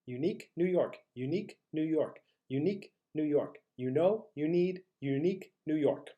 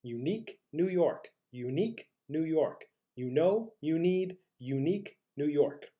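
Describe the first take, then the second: First: Slightly quicker vocal drill; a little faster. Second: Measured tongue twister. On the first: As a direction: tighten the gaps between phrases. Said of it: "a little bit faster". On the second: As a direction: leave space after each phrase. Slower take before the faster one. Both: Shown as a demonstration.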